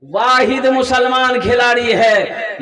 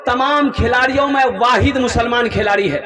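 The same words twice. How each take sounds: First: "वाहिद" stressed, whole line slowed; slow emphatic repeat. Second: Said in the usual way. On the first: Shown as a demonstration. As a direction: lean on "वाहिद" and slow right down. ("वाहिद" पर ज़ोर, पूरी पंक्ति धीमी)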